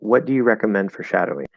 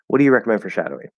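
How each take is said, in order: First: It has the measured tune of reading aloud. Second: It has the relaxed tune of casual conversation. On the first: "if I'm reading your comment" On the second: "that's more conversational"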